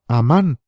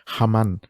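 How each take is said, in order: First: The name starts directly with a vowel. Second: The name starts with an h sound.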